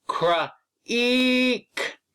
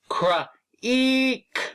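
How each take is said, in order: First: The word is split into separate sound parts. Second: The same.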